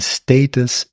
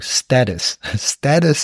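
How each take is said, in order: First: The word has a British English pronunciation. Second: The word has an American English pronunciation. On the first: "And status is British English" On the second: "Status is American English according to the Cambridge Dictionary"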